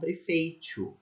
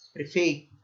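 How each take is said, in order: First: The t after i sounds like 'ch'. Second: The t after i sounds plain. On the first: This is how people in the North and Northeast say it. "Eles palatalizam o T depois do I" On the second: This is how people in inland São Paulo say it. "A gente não faz isso"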